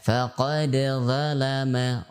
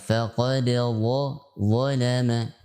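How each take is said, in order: First: The z sound is thin and light. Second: The z sound is thick and heavy. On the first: The speaker calls it wrong. "dibaca dengan tipis sehingga dia akan mirip huruf dzal" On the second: The speaker calls it right. "harus dibaca tebal"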